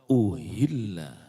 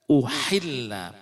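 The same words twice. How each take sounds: First: The h is light and breathy. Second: The h is strong and throaty. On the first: It is slaughtered. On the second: It is made lawful.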